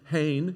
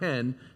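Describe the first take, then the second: First: The vowel sounds like 'ai' in 'rain'. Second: The vowel sounds like 'e' in 'hen'. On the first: The speaker calls it right. "hain, it's not hen" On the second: The speaker calls it wrong. "it's not hen"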